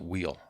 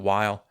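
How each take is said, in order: First: The name sounds like the word 'wheel'. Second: The name does not sound like 'wheel'. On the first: "Some people pronounce it Wheel" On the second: "Some people pronounce it Weil"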